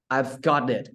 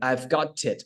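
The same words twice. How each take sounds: First: It is said with an American flapped t. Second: It is said with a British-style clear t.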